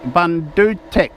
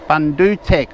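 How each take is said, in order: First: The second vowel sounds like 'oo' in book. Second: The second vowel sounds like 'oo' in book.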